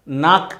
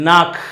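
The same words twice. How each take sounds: First: "నాక్" ending in a simple k stop; plain Hindi K. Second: "నాక్" ending in a clear breathy kh; louder "నాక్" with a drawn throaty kh. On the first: Teacher contrasting the Hindi word, plain K. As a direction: close "నాక్" on an unbreathed k. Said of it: "నాక్ అంటాము హిందీలో". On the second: Teacher correcting toward German, clear kh ending. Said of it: "ఖ అనేది స్పష్టంగా పలుకుతుంది". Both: Shown as a demonstration.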